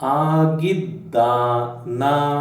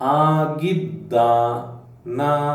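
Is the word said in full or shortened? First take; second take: shortened; shortened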